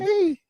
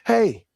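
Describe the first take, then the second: First: The word is said in a light, soft voice. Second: The word is said in a heavy, deep voice. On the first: This is how the person was expected to sound. "he didn't have that that that" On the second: The person sounded like an ordinary man. "That that heavy ass voice"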